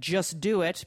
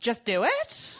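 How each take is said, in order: First: The pitch falls at the end like a command. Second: The pitch rises at the end like a question. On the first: It is a firm command. "a powerful command like just do it" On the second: It sounds unsure, like a question. "becomes just do it"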